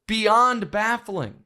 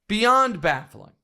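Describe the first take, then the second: Both takes have the same delivery.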